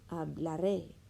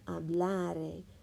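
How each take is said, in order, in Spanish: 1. El acento está en la última sílaba. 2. El acento está en la penúltima sílaba. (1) "quiero hablaré, ¿sí? Quiero tener mi énfasis aquí al fin" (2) "sin este acento sería hablare"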